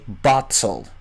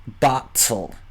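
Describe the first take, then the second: First: The middle t is a clear t. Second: The same.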